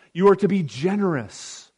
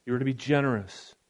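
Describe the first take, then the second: First: Are pressed firm and falling; you ARE to be generous; stress on are. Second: Softer and a bit lower, brisk; hushed quick restatement; softer, quicker repeat. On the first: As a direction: lean hard on are, then let generous drop. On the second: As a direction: echo it back quietly, like an aside to yourself. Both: Shown as a demonstration.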